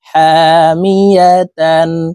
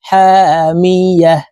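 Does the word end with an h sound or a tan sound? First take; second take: tan sound; h sound. First: The word ends with a full tan sound. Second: The word ends with a silent-vowel h sound. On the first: The reader continues without stopping. "তা দুই জবর তান" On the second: The reader stops at this word. "ওয়াকফের ক্ষেত্রে হার উচ্চারণ করব এবং হাকে সাকিন করে ফেলবো"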